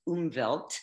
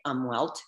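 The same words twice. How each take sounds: First: The word is said with a German pronunciation. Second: The word is said with an American pronunciation. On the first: "developed by a German scientist, so probably pronounced Umwelt" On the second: "Americans say it umwelt"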